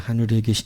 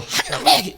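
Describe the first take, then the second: First: It is said calmly, in an ordinary way. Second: It is said explosively, bursting out forcefully.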